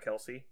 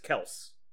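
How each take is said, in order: First: The name has two syllables, ending in 'ee'. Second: The name has one syllable, ending in 's'. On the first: The speaker calls it wrong. "his last name is not Kelce" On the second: The speaker calls it right. "It's just Kels"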